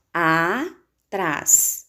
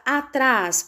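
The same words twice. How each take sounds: First: "atrás" split as a... trás; syllable by syllable. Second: Said in the usual way. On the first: Shown as a demonstration. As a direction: hold the "a", pause, then "trás" in "atrás". ("atrás" separado em sílabas: a... trás) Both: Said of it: "nós separamos".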